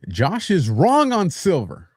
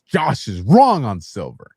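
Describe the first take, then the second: First: It is said plainly, without extra force. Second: It is said forcefully, with strong emphasis.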